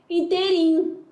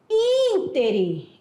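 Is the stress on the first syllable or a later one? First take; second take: later; first. First: The stress is on a later syllable. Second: The stress is on the first syllable. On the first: The speaker calls it wrong. "e não interim" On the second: The speaker calls it right. "O certo é falar íntere... a palavra ínter é proparoxítona"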